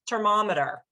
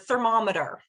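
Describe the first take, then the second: First: The word begins with a T sound. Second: The word begins with a TH sound. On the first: "with a T sound" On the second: "that has a T H sound"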